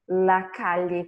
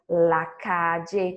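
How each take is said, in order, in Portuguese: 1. O ll soa como o lli em million. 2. O ll soa como o j em jam. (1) "com som de L H" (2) "com som de D J"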